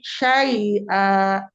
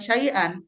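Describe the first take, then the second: First: It ends in a long vowel held two counts. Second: It ends in a short vowel plus an n sound. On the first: The reciter stops on this word. The speaker calls it right. "bila diwakaf diubah menjadi madiwa, jadi dua harokat" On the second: The reciter does not stop on this word. The speaker calls it wrong.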